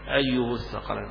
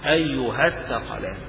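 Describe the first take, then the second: First: The h of the first word takes a short u. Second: The h of the first word takes a short a. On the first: "على أصل الضمير أنه مضموم" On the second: "تحذف الألف تقرا فتحة بس"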